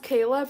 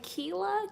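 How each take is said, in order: First: The first syllable sounds like 'kay'. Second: The first syllable sounds like 'kee'. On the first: The speaker calls it right. "it's pronounced Kayla" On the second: The speaker calls it wrong. "People always say Keela"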